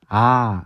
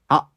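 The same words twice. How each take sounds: First: A plain vowel with no catch in the throat. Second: The vowel is cut off abruptly by a catch. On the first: "성문 파열음이 아예 없는 그냥 순수한 모음이고요" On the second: "아 하고 끊기는 발음이 들면은 성문 파열음이 뒤에 있는 겁니다"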